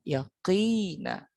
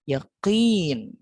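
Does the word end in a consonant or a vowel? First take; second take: vowel; consonant. First: The word ends with a short vowel sound. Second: The word ends on a bare consonant sound. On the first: The reader continues without stopping. "Misalnya ada kata yaqina" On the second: The reader stops at the end of the verse. "apabila di akhir ayat atau disukunkan, maka katanya berubah menjadi yakin"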